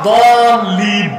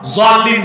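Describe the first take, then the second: First: The word begins with a d sound. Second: The word begins with a z sound. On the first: The speaker calls it right. "আসলে উচ্চারণটা দলিন" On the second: The speaker calls it wrong. "জলিন না"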